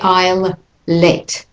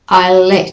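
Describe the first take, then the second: First: The L sound is pronounced twice between words. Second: The L sound is pronounced only once between words. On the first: The speaker calls it wrong. "we don't say I'll let. We don't double it" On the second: The speaker calls it right. "so one L falls"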